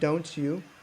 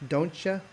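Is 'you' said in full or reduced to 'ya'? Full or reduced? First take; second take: full; reduced. First: The word 'you' is said in full. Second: The word 'you' is reduced to 'ya'. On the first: "It's written" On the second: "But Americans will say"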